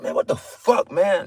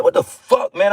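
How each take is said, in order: First: Frustrated half-whispered grumble; exasperated mutter. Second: Higher, punchy fed-up exclamation; exasperated outburst. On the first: Preacher mimics himself muttering at annoying people, frustrated whisper. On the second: Preacher acts out his own irritation at people, fed-up outburst. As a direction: throw it out in disbelief. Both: Retold or imitated. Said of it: "That, I'm, this is me".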